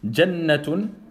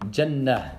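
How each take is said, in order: First: The word ends with a -tun syllable. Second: The word ends with a soft h sound. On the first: The reading continues without stopping. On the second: The reader stops on this word.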